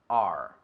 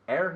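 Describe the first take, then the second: First: The letter is said like the word 'are'. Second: The letter is said like the word 'air'. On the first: The speaker calls it right. "Es como el verbo. Are you coming?" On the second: The speaker calls it wrong. "No es air, porque air es aire"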